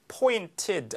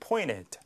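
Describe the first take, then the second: First: The t after the n is clearly pronounced. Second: The t after the n is dropped entirely. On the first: "pointed 하지 않고" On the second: "N 다음에 T가 완전히 N 소리에 동화돼서 T가 발음이 아예 안 되는"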